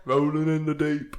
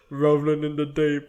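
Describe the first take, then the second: First: Put-on weird British accent. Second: Said in the usual way. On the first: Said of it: "with a weird British accent".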